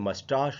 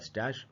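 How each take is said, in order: First: The last vowel sounds like 'ah'. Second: The last vowel sounds like 'cat'. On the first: This is the British pronunciation. "British में बोलेंगे" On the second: This is the American pronunciation. "American में बोलेंगे"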